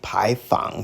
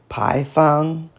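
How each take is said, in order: First: The syllable fang has a low dipping tone. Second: The syllable fang has a high level tone.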